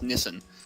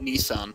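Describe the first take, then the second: First: The name is said the local, non-American way. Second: The name is said the American way. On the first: This is how people here say it. The speaker calls it wrong. "here, we pronounce Nissan as Nissan" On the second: This is how the listener's country says it. The speaker calls it right. "You guys pronounce it Nissan, which is actually the more accurate way"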